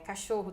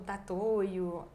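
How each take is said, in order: First: The word begins with a k sound. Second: The word begins with a t sound. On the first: This is the standard adult form. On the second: This is a young child's sound swap.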